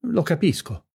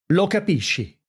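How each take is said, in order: First: Said in the usual way. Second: Higher-pitched, incredulous retort; indignant echo, pitched up without full volume; mild acted yell. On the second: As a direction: throw it back as an understated shout. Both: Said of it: "urlò Brizio".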